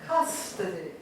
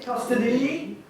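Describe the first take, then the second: First: CUS-to-dy, lower and falling; correct first-syllable stress. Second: Custo-DY, weight on the end; wrong last-syllable stress. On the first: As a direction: land on CUS in custody, then drop away. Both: Shown as a demonstration. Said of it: "We don't say".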